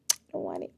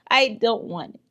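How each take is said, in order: First: Low, soft afterthought; muted refusal. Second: Louder, higher, firm rejection; emphatic refusal. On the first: Repeating her refusal to herself, muted. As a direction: drop it low, under the breath. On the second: Refusing the Kenyan accent to viewers, emphatic. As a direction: push it away loudly. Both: Real, not acted.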